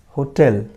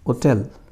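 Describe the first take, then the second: First: The word starts with an h sound. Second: The word starts without an h sound. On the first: The article before it is a. "then a will be used" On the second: The article before it is an. "an will be used"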